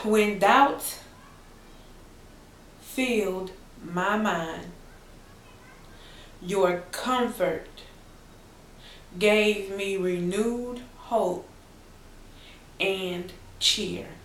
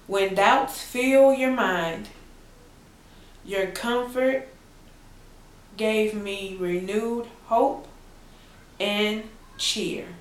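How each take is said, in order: First: It is read a little more slowly. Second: It is read at a normal pace.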